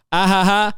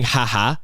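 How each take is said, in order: First: Higher, livelier "Ah ha ha," spelled out in full; proper five-letter laugh. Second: Dry flat ha ha. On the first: Shown as a demonstration. Demoing the correct five-letter ha ha to a dry texter. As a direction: show the right way to text a laugh, brighter. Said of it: "it's gotta be five letters". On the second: Retold or imitated. Mocking a dry texter's short ha ha, deadpan. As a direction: read the "Ha ha." as a bored, flat texter. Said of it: "they just keep saying".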